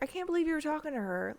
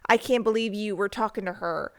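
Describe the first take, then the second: First: It sounds light and casual. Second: It sounds angry and accusing. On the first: This is how the sender actually meant it. "in reality it's just like" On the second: This is how the reader imagines the message. "in your head they're just like, ah"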